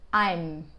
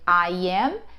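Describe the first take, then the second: First: The two words are joined into one syllable. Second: Both words are said fully and separately. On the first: "ele vai virar I'm" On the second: "ao invés de dizer I am"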